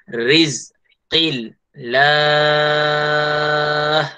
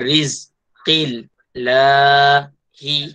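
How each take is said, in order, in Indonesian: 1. Vokal panjang diakhiri dengan 'h' yang berhenti. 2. Berakhir dengan bunyi vokal pendek. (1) "dibaca dengan jari enam" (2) "Itu tidak berhenti, maksudnya sambung"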